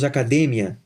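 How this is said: The word is said with Spanish pronunciation. "En español, hablamos academia"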